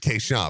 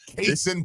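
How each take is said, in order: First: The second syllable sounds like 'shawn'. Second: The second syllable sounds like 'sin'. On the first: The speaker calls it wrong. "I thought it was Kayshawn" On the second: The speaker calls it right. "he has on there K dash Sin. That's Kason Pryor"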